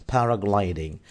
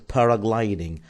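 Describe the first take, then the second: No difference in how they are said.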